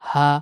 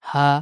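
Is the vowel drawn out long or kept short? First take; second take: short; short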